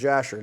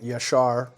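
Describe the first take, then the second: First: The name begins with a J sound. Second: The name begins with a Y sound.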